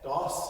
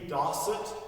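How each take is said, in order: First: The word is clipped to one short syllable. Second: The word is said in full, two syllables. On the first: The count is fast. "if we're saying it fast, we shorten it to just das and yas" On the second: The count is slow. "it can be dasut, yasut, if we're counting slowly"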